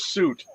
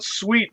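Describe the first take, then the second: First: The word sounds like 'suit', rhyming with 'boot'. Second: The word sounds like 'sweet', rhyming with 'feet'. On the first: This is how the locals say it. "they call it a suit" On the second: Locals find this way of saying it strange. "if you call it suite, they're like, What are you talking about?"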